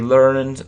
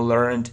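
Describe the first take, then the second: First: The word ends with a d sound. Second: The word ends with a t sound. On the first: This is the regular past form. "this verb can be regular or irregular" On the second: This is the irregular past form. "this verb can be regular or irregular"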